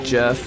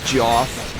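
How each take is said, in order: First: The vowel sounds like 'eh', as in Jeff. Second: The vowel sounds like 'aw', as in Joff. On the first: The speaker calls it right. "which is how it's supposed to be pronounced" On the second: The speaker calls it wrong. "I'm tempted to pronounce it as Joff"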